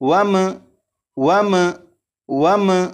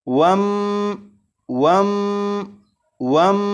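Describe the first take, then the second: First: The final m ends with a bouncing echo. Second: The final m is held with a nasal hum. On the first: "इस मीम साकिन पर कलकला भी नहीं करेंगे, यानी इस तरह से नहीं पढ़ेंगे।" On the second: "इस मीम साकिन पर गुन्ना नहीं करेंगे, यानी इसे इस तरह से नहीं पढ़ेंगे।"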